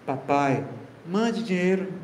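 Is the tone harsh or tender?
tender. It is said in a tender, affectionate tone.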